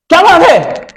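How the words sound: It sounds like an angry scolding.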